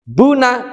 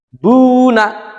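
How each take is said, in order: First: The first vowel is short. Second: The first vowel is held long. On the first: "tidak panjang" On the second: "bunya dibaca panjang"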